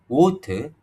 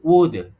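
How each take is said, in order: First: The middle consonant sounds like a T. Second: The middle consonant sounds like a D. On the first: "like a T" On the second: "or D"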